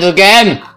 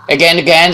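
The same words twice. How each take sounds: First: Higher, louder, falling exasperated cry; frustrated outburst. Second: Higher and louder, rising in annoyance; each again climbing in frustration; exasperated repeat. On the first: Narrator's frustration boils over at the clicking, exasperated cry. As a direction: snap out the last again at its peak. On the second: Narrator fed up with the clicking, rising exasperation. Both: A narrator's reading.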